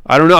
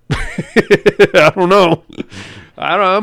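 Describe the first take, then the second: First: Said in the usual way. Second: Laughing. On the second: Real, not acted. Sheepish joke about his wife.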